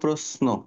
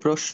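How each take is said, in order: First: The consonant before n is an 's' sound. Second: The consonant before n is a 'sh' sound. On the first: The speaker calls it right. "এস এইচ না, এস এইচ হবে না, দন্ত ছয়ের মতো হবে" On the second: The speaker calls it wrong. "প্রশ্ন বলবো না"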